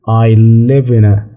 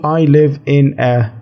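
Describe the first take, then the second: First: The words run together quickly as one unit. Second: Each word is said separately and distinctly. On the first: The speaker calls it right. "لما نكون بنتكلم بسرعة" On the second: The speaker calls it wrong. "مش بتقول I live in a كذا"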